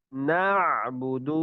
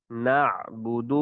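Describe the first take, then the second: First: نعبد with the ayn squeezed in the throat; strangled ayn. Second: نعبد slow, ayn open in the throat; correct ayn. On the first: Teacher shows the mistake: a choked ayn. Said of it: "اس طرح گلا گھوٹ کر پڑھنا یہ ٹھیک نہیں". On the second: Teacher shows the right ayn, slow and open. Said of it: "صحیح تلفظ کے ساتھ ادائیگی کریں گے". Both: Shown as a demonstration.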